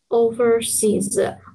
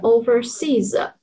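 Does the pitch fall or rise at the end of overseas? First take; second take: fall; rise. First: The pitch falls on the final syllable seas. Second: The pitch dips and then rises at the end. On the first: The speaker calls it right. "seas 是overseas" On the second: The speaker calls it wrong. "而不是overseas"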